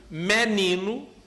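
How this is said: It is said in a northeastern Brazilian accent. "no Nordeste"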